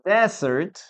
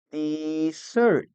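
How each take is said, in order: First: "desert" said DEZ-ert, stress on the first syllable; "desert" as the noun, first syllable strong; noun pronunciation. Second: "desert" said de-ZERT, stress on the second syllable; "desert" as the verb, second syllable strong; verb pronunciation. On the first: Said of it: "the pronunciation is desert". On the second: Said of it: "In the second case". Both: Shown as a demonstration.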